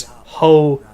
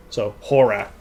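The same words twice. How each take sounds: First: "ho-roar" slow, the R starting the second syllable; syllables split. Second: "horror" said as "hor-ruh", final R dropped; Maine pronunciation. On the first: Streamer slowly spells out the Maine "horror" as "ho-roar". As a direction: stretch "ho-roar" into two clear beats. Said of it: "beginning the second syllable with one". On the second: Streamer explains how Mainers say "horror", as "hor-ruh". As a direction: drop the last R in "horror". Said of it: "the last R you drop". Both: Shown as a demonstration.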